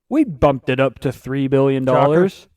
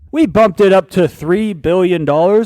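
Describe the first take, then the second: First: It is said at normal loudness. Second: It is said louder.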